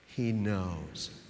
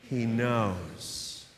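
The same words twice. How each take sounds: First: It is said plainly, without extra force. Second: It is said with strong, emphatic conviction.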